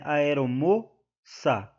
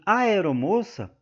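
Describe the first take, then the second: First: "Aeromoça" slowly, mo held, ça set apart; split into syllables. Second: Said in the usual way. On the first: Shown as a demonstration. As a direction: pause after the stressed mo in "Aeromoça". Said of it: "é a sílaba tônica". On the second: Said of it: "o mo é a".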